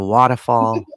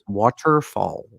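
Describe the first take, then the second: First: The r sound is dropped, Boston style. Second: The r sound is clearly pronounced. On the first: "instead of" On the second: "I've tried to been pronouncing all my R's"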